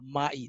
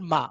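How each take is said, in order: First: The word ends in an 'eye' glide. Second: The word ends in a plain 'ah' vowel. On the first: The speaker calls it right. "Say mai" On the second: The speaker calls it wrong. "Not ma"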